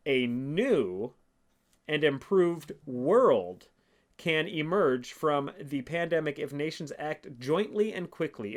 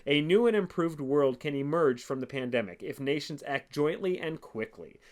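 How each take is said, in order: First: Slow, each phrase spaced out, world louder; slow, weighty reread. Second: Said in the usual way. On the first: Shown as a demonstration. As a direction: drag it out so every phrase lands. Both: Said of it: "let's read this one more time for you".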